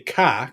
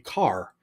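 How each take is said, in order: First: It is said with the R dropped, Massachusetts-style. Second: It is said with the R pronounced.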